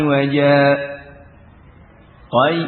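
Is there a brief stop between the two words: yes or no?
yes. A brief stop without breath separates the words. "dengan waqfah latifah"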